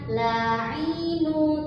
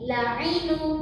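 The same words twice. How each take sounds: First: The vowels are dragged out long. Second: The vowels are all kept short. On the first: The speaker calls it wrong. "tidak diseret ya, bukan la'inu" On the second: The speaker calls it right. "kata ini pendek semua"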